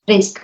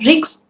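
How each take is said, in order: First: The word ends cleanly on the k sound. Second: The word ends with an added s sound. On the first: The speaker calls it right. "but it is risk" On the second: The speaker calls it wrong. "You are pronouncing it as risks"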